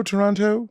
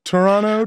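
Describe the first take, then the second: First: Toronto with a clear hard second T; hard-T pronunciation. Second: Toronto with the second T dropped, "Torono"; local pronunciation. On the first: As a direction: sound out the final "to" in Toronto fully. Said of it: "Drop the hard T at the end". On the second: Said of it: "you gotta drop the T". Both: Shown as a demonstration.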